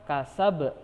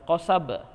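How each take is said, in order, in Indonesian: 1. Dimulai dengan bunyi k depan. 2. Dimulai dengan bunyi q belakang yang dalam. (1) "huruf kaf, kasab ka, bukan ko" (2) "bukan qasab"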